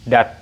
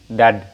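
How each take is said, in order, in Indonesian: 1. Suku kata itu diakhiri dengan bunyi t. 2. Suku kata itu diakhiri dengan bunyi d. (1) "maka ini bunyinya adalah dat" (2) "bukan dad. kalau dad maka ini salah"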